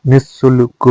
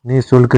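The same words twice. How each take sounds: First: निशुल्क with a long double s; doubled s. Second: निशुल्क with one short s sound; no doubling in निशुल्क; single-s pronunciation. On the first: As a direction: hold the s in निशुल्क. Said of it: "निशुल्क होता है". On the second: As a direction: say निशुल्क as ni-sulk. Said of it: "निशुल्क नहीं होता". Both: Shown as a demonstration.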